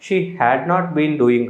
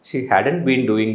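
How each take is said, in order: First: The words 'had not' are said in full. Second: The words 'had not' are shortened together.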